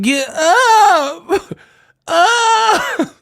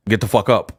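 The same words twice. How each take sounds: First: High squealed falsetto, stretched; mocking yell. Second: Low, unexcited order; cool masculine. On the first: Showing how he would never say it, squealed mock yell. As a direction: shriek it as the wrong way to say it. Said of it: "I wouldn't be like". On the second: Showing what he'd tell a fallen uncle, cool and low. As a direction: keep it low and cool, no yelling. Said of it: "that's how I would say". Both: Shown as a demonstration.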